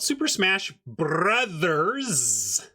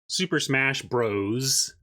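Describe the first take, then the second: First: The last word is said in full, 'brothers'. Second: The last word is shortened to 'bros'. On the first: The speaker calls it right. "It's called Super Smash Brothers" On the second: The speaker calls it wrong. "predominantly the world calls it Super Smash Bros"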